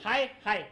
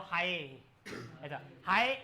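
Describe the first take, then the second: First: हाय said twice, loud and cleanly apart; clean echo demo. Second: हाय with its last vowel drawn out long; stretched hi. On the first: Teacher showing students a distinct echo, loud and clear. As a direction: call hi, then its separate echo. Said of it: "reflect होके block खत्म होने के बाद में अगर आया है". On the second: Teacher showing the class reverberation, a drawn-out hi. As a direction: let the हाय ring on and linger. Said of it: "वो इलोंगेट हो जाएगा". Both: Shown as a demonstration.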